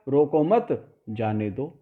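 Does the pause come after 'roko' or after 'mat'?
after mat. There is a break right after 'mat'. Do not stop him; let him go. "समझा क्या गया"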